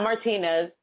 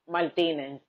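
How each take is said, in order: First: "Martinez" said the American English way; "Martinez" as Mar-TEE-nez, final z sounded; English pronunciation. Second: "Martinez" said the Dominican Spanish way; "Martinez" as Mal-TEE-ne, final z dropped; Spanish pronunciation. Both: Shown as a demonstration. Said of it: "not Martinez, Martinez".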